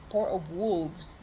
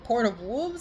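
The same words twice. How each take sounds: First: Drawn out, each word spelled out; a clear, careful restatement of the name; slow and deliberate. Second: Said in the usual way. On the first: Shown as a demonstration. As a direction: slowly, lower and softer, to confirm the name. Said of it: "the animal, yeah". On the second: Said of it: "I believe?".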